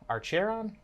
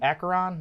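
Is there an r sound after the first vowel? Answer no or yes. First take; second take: yes; no. First: An r sound follows the first vowel. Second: No r sound follows the first vowel. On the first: The speaker calls it wrong. "however you pronounce that" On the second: The speaker calls it right. "That sounds more right"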